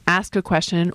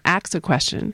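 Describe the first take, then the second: First: The s sound comes before the k sound. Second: The k sound comes before the s sound. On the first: "the variation between ask and ax" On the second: "the form ax is a stigmatized pronunciation"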